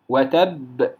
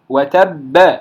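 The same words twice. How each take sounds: First: The final b ends in a bare lip release. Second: The final b is followed by a vowel. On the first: The speaker calls it right. "هذا صوت الشفتين، صوت الشفتين وليس صوت حركة" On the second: The speaker calls it wrong. "لا يقول وتب وتب"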